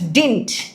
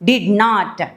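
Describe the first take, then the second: First: It is said as one contracted word. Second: It is said as two full words.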